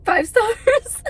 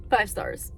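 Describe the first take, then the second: First: High and louder with a laugh; squealing through tears; real laughing delight. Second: Said in the usual way. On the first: Real, not acted.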